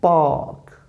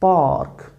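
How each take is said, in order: First: The word ends with clearly pronounced consonants. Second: The word ends with clearly pronounced consonants.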